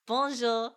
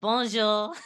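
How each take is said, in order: First: Second, improved French Bonjour; better French bonjour. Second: Bonjour mangled into a flat "bo-zhuh" with a rising end; first clumsy try at French Bonjour; botched French bonjour. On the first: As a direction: try the French Bonjour more carefully. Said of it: "That was better, I think". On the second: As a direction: fumble the French Bonjour and let it rise. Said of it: "try again, try again". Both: Shown as a demonstration.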